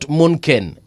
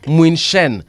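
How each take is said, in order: First: The middle consonant is a hard 'k' sound. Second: The middle consonant is a soft 'sh' sound. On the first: The speaker calls it wrong. "not Munken" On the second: The speaker calls it right. "is pronounced as uh, Muinshen"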